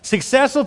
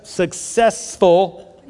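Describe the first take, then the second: First: Said in the usual way. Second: "successful" drawn out very slowly; slow word. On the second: Shown as a demonstration. Pastor correcting a stumbled word for the congregation, very slow. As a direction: stretch "successful" out syllable by syllable. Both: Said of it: "say that word slowly".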